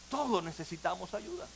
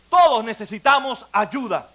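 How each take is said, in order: First: Much softer, hushed, intimate restatement; soft repetition. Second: Louder, firm declaration to all; firm proclamation. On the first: Preacher quietly repeating to his congregation, hushed. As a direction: say it gently, almost to yourself. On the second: Preacher declaring to his congregation, firm and louder. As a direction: proclaim it to the whole room. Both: Real, not acted.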